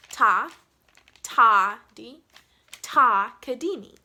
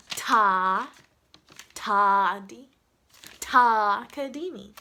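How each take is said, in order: First: "Ta" hit hard and loud at each start; stress on TA. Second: "Ta" heavily leaned on and drawn out; exaggerated stress on TA. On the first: Teacher showing the shared first syllable, "Ta" stressed. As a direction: punch every opening "Ta", then ease off. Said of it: "the very first syllable on all of them is ta". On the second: Teacher overemphasizing the first syllable, exaggerated long "Ta". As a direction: stretch each opening "Ta" slowly, overdoing the emphasis. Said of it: "I don't know if I can emphasize that even more". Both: Shown as a demonstration.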